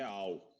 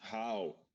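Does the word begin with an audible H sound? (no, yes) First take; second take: no; yes. First: It begins with no H sound at all. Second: It begins with an audible H sound. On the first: "aqui é all" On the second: "palavras em inglês"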